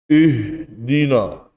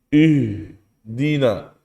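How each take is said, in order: The two takes are said the same way.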